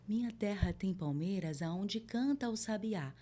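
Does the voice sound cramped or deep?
deep. The voice sounds deep, with a lowered larynx. The speaker calls it right. "eu tô descendo mais a minha laringe"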